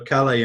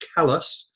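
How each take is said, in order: First: It is said as the French town's name. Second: It is said as the Maine locals say it. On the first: It names the town in France. "named after Calais in France" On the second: It names the town in Maine. "although they pronounce it Calais"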